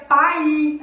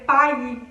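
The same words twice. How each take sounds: First: Pai as pa-i, two full vowels, louder; split vowels. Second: Pai as one syllable, the i gliding; natural glide. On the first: Teacher demoing pai as if both vowels strong. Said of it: "como se todas as vogais fossem fortes". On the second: Teacher giving the normal one-syllable pai. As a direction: say pai with a quick light i. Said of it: "a gente falaria pai". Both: Shown as a demonstration.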